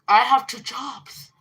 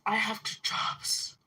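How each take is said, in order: First: Slow, louder mock of the sister; hammed-up sister's complaint. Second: Unvoiced mocking whisper of the sister; mock whisper of her line. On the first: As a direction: drag it out to mock her. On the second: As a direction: sneer it back under your breath. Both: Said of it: "She's like".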